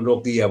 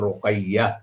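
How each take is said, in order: First: The name is said with Bengali pronunciation. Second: The name is said with Arabic pronunciation. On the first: The speaker calls it wrong. "আমরা যেমন রোকিয়া বলি।" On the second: The speaker calls it right. "শব্দ হবে রোকাইয়া।"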